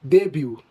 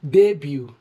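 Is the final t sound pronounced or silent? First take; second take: silent; silent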